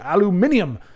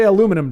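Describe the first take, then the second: First: The word is said with five syllables. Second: The word is said with four syllables. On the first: The speaker calls it right. "There must be more syllables" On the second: The speaker calls it wrong. "we're not going to say aluminum"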